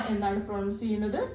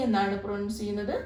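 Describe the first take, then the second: No difference in how they are said.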